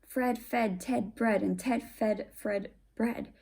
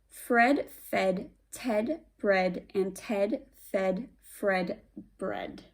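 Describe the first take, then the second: First: It is said fast. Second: It is said slowly.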